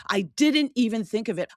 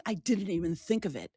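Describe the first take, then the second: First: Louder, exasperated, stress on didn't; exasperated at herself after the husband's remark; exasperated aloud. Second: Whispered to herself, soft; whispered thought after the husband's remark. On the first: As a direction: say it out loud at herself, frustrated. Repeated aloud after whisper. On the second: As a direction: breathe it out as a private realization. Inner thought, then repeated. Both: Shown as a demonstration.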